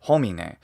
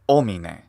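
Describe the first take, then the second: First: The word starts with an audible h sound. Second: The word starts with a vowel, no h. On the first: "and not homine" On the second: "he's definitely saying omine"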